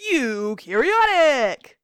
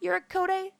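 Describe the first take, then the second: First: Eukaryotic drawn out loudly as you-carry-OT-ic; correctly pronounced. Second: Eurycoidae said as yor-ko-day, high and unsure; mispronounced. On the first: Host echoing the phone, Eukaryotic loud, slow and correctly pronounced. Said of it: "That is how it's pronounced". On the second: Contestant guessing for points, Eurycoidae mispronounced as yor-ko-day. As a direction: botch Eurycoidae with a ko-day ending. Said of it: "saying it wrong". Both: Shown as a demonstration.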